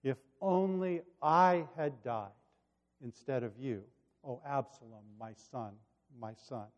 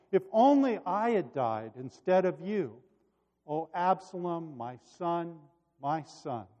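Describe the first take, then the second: First: Hushed, reflective quote of a bereaved father. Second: Narrated father's grief; grieving cry. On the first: Retold or imitated. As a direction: let the grieving words sink away. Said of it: "His words cut right to the heart". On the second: A narrator's reading. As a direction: mourn aloud, fading on the last words. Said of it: "he cried".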